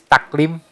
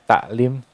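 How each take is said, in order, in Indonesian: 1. Konsonan tengahnya adalah bunyi k. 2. Konsonan tengahnya adalah bunyi hamzah yang ringan. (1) "nah itu menggunakan huruf uh, kaf" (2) "taklim itu masih menggunakan huruf hamzah"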